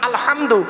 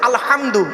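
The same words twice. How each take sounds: Both takes have the same delivery.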